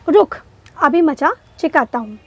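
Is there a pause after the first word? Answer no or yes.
yes. There is a short pause after the first word. It sounds like a threat. The speaker calls it right.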